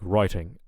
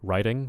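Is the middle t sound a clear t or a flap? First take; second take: clear t; flap. First: The middle t is a clear, crisp t sound. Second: The middle t is a quick flap like d. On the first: "in British English" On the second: "in American English, that often becomes like a ra ra ra"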